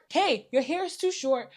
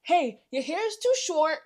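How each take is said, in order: First: Said in the usual way. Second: Mock scolding hairdresser; what she should have said. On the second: To the hairdresser, a mildly mocking blunt warning. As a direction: spell it out like a blunt stylist. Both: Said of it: "You should have said".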